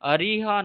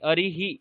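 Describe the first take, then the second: First: The final visarga is followed by an 'a' echo. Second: The final visarga is followed by an 'i' echo. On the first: The speaker calls it wrong. "অরিহা নয়" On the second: The speaker calls it right.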